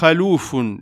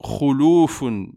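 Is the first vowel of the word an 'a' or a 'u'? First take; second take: a; u. First: The first syllable has an 'a' vowel. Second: The first syllable has a 'u' vowel. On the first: The speaker calls it wrong. "beaucoup lisent « khaloufun »... Et ceci est une erreur" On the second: The speaker calls it right. "doit être prononcé « khuloufun » avec une dhamma sur le « kha »"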